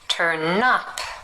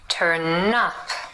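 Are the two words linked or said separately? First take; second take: linked; linked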